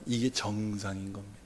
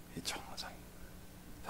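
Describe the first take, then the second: First: Said in the usual way. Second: 이게 정상인 거예요 breathed as a whisper; soft whispered aside. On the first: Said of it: "repeated, second whispered". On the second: Shown as a demonstration. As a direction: drop to a hushed whisper to stress the point. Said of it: "repeated as whisper".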